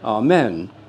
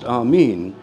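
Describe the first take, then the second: First: The second syllable has a short E vowel. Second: The second syllable has a long E vowel. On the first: "there isn't a long E in Latin" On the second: "written is with the eta, the long E"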